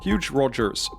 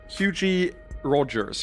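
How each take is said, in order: First: The first name is one syllable, like huge. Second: The first name has two syllables, ending in ee. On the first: "You don't, right? It's huge" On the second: "do you pronounce the I?"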